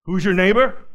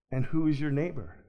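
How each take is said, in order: First: "Who's your neighbor?" fired off loud and challenging, the wrong way to ask; accusing, louder, pushing the listener; harsh demanding tone. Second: Gentle asking. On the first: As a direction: bark the question like a cross-examiner. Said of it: "I know Jesus didn't say it like that". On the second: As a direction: ask it like a friend who already loves him. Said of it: "It's a little better". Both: Shown as a demonstration.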